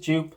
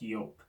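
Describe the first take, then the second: First: It is said the commonly used way. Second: It is said the actual, original way. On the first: The speaker calls it wrong. "Everyone says everyone says Joop" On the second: The speaker calls it right. "it is actually pronounced Joop"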